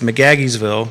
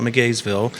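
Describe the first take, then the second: First: The name is said with four syllables. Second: The name is said with three syllables. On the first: This is how locals say the name. The speaker calls it right. "It's McGaggiesville" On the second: This is how outsiders say the name. The speaker calls it wrong. "Don't call it McGaysville"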